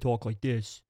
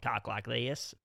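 First: It is spoken in a New York accent. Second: It is spoken in a Deep South accent. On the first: "New York where they talk like this" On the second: "people from like the very deep South"

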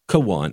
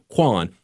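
First: The K is said apart from the W. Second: The K runs straight into the W sound. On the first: The speaker calls it right. "you've got to really pronounce that K and separate it from the W" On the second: The speaker calls it wrong. "So it's not Kwan"

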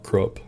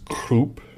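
First: The name is said with an American pronunciation. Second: The name is said with a German pronunciation. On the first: The speaker calls it wrong. "not Krupp, but I'm an American" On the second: The speaker calls it right. "it's Krupp"

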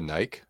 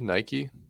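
First: The final E is silent. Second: The final E is pronounced.

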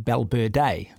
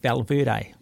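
First: The name is said the native Spanish way. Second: The name is said the anglicised English way. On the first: This is how it is said in the rider's own country. The speaker calls it right. "but it's actually Balberde" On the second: This is the familiar version most viewers know. The speaker calls it wrong. "you get a guy like Valverde"

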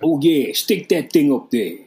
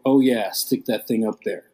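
First: It is said in a put-on character voice. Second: It is read in a plain, normal voice. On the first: "Do the voice, [name]"

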